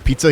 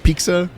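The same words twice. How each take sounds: First: It is said without a K sound. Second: It is said with a K sound.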